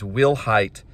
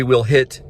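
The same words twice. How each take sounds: First: "Hite" said to rhyme with kite; "Will Hite", second syllable like height; pronounced Will Hite. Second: "Hit" said with a short i; "Will Hit", short vowel in the second syllable; alternative pronunciation. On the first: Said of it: "I'm pronouncing it as". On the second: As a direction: say "Will Hit", ending like the word hit. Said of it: "If you have a different pronunciation". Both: Shown as a demonstration.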